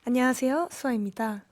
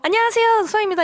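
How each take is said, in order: First: It is said in a low, calm tone. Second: It is said in a high, energetic tone. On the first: It sounds elegant and classy. "말투나 억양이 조금 낮아요" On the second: It sounds like an ordinary cheerful greeting. "저희는 조금 하이텐션이잖아요"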